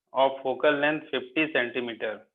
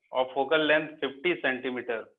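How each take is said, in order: The two takes are said the same way.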